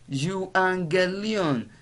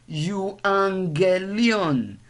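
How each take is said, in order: First: The middle consonant is an ng sound. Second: The same.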